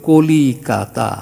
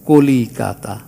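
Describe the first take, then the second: Both takes have the same delivery.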